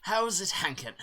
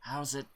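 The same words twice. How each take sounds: First: Chirpy NPC greeting. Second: Said in the usual way. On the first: Acted. Reading the NPC's greeting pun. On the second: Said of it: "Get it?".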